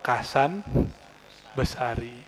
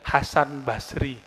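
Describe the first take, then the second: First: The name starts with a K, with extra vowel. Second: The name starts with an H, no extra vowel. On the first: This is how Javanese people say the name. "Logat orang Jawa" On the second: This is the original form of the name. "namanya Syekh Kiai Hasan Basri"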